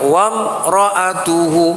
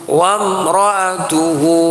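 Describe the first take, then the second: No difference in how they are said.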